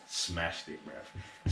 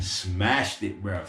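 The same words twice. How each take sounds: First: A low, breathy aside, barely voiced; low murmur. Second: Said in the usual way. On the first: Real, not acted. Praising Wesley to the viewer in a low murmur. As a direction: drop low and murmur it, nearly whispered.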